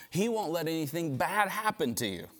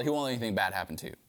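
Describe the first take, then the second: First: A touch higher, unhurried tempting dare; coaxing him to jump, lightly voiced; Satan's taunt. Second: Quick plain restatement. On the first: Satan daring Jesus to prove his sonship, mild taunt. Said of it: "He's basically saying". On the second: Real, not acted. Preacher restating the lie to his congregation, fast and plain. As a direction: lower and fast, just explaining. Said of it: "If God really is your father".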